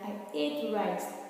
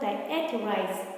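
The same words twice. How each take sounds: First: The word 'ate' sounds like 'eight'. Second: The word 'ate' does not sound like 'eight'. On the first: The speaker calls it right. "it's pronounced as ate" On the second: The speaker calls it wrong. "not I ate rice"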